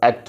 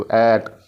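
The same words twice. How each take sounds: First: एट with a short ए; brief एट, vowel not stretched; quick vowel. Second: एट with ए held long; long, drawn-out एट; stretched vowel. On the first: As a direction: say एट quickly and loud. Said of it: "pronunciation थोड़ी fast and quick है". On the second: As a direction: pull the vowel out in एट. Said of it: "देखो कैसे इसको stretch कर रहे हैं". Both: Shown as a demonstration.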